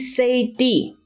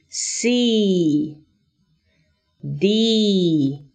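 First: The letters end without a long ee vowel. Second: The letters end with a long ee vowel. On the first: The speaker calls it wrong. "这是不正确的发音方式" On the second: The speaker calls it right. "尾音也是长音的E"

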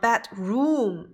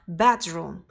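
First: The vowel in 'room' is long. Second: The vowel in 'room' is short. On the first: The speaker calls it wrong. "所以我们不能读成bedroom，那就错了" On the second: The speaker calls it right. "要读成bedroom"

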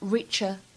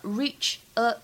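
First: The two words run together as one. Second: The two words are said separately.

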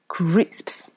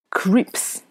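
First: The word has two s sounds. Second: The word has only one s sound. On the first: The speaker calls it right. "它正确读法应该是crisps" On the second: The speaker calls it wrong. "会自动忽略掉一个s"

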